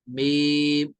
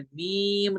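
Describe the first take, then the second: First: "मीम" held long on an even note; correct level meem. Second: "मीम" with the note swung up and down; wrong wavering meem. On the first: Teacher showing students the right reading, level. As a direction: keep "मीम" steady, closing on m. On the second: Teacher showing students what not to do, wavering. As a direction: bend the pitch through "मीम". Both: Shown as a demonstration. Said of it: "मीम नहीं पढ़ना है".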